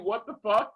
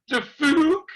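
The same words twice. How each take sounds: First: Said in the usual way. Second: The fuck, punched loud and rising like a baffled face; mock baffled. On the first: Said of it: "when we do". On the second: Shown as a demonstration. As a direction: say The fuck like a confused emoji. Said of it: "the face on Facebook".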